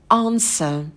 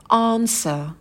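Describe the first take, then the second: The two takes are said the same way.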